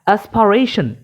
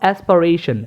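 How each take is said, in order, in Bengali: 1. মাঝের p-টি বাতাসের ঝলক সহ উচ্চারিত হয়। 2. মাঝের p-টি বাতাসের ঝলক ছাড়া উচ্চারিত হয়। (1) "এটা কিন্তু ভুল" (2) "আমি কিন্তু অ্যাসপারেশন বলছি না"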